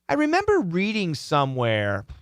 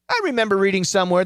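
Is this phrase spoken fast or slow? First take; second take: slow; fast. First: The phrase is spoken slowly with rhythm. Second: The phrase is spoken quickly without breaks. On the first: The speaker calls it right. "So we slow it down" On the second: The speaker calls it wrong. "If you said it that fast"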